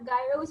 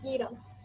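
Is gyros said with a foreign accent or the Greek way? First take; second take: foreign accent; Greek. First: The word is said with a foreign accent. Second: The word is said with a native Greek pronunciation. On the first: The speaker calls it wrong. "those who have an accent tend to read it as gyros, but it's not gyros" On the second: The speaker calls it right. "it's gyros"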